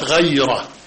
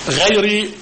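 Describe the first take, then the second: First: The word ends with an 'a' vowel. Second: The word ends with an 'i' vowel. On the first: The word is read as an exception, set apart from the rest. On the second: The word is read as an adjective describing the followers.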